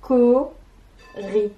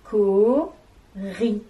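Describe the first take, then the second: First: Co-ri said loud, each syllable separate; proud syllable reveal. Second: Co-ri split into two loud, separate syllables. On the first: Teacher unveiling the invented animal co-ri. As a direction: present co-ri like a reveal. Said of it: "mon animal que je viens d'inventer". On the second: Teacher splitting cori into syllables. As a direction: clap out Co-ri, one beat per syllable. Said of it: "la syllabe ri". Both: Shown as a demonstration.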